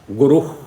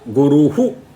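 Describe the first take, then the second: First: The word ends without an added -hu syllable. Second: The word ends with an added -hu syllable. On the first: This is the northern way of saying it. "in North India, people by and large they pronounce the visarga correct" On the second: This is the southern way, made distinct and clear. "in South India, to be very very distinct and make it very clear, we say"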